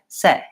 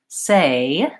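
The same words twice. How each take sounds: First: The vowel stays on one steady sound. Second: The vowel glides from one sound to another. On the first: The speaker calls it wrong. "a Spanish speaker might just use their native Spanish vowel. They might say" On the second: The speaker calls it right. "We glide from the A to the I. So I say"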